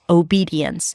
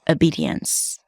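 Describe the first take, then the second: First: It begins with a full 'oh' vowel. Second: It begins with a weak 'uh' vowel. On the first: "The first one is O, as in go at the beginning" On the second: "you can also put a schwa at the beginning"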